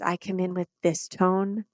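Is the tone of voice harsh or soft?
soft. The voice sounds soft and gentle. The speaker is not there to fight. The speaker calls it right. "my body is soft and says, I'm not here to fight you"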